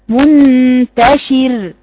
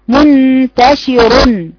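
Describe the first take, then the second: First: The final r is thin, said at a stop. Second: The final r is heavy, joined to what follows. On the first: The reciter pauses on the word. "لكن لو وقفت عليها منتشر يبقى شير" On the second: The reciter carries on without pausing. "لكن وصلا منتشر بقت مفخمة وصلا"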